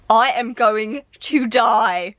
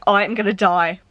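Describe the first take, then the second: First: "going to die" stretched out, every word spaced and weighted; slow emphatic repeat. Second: Said in the usual way. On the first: Shown as a demonstration. Reader restating her hype for the next book, slow and deliberate. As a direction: drag it out slowly, word by word.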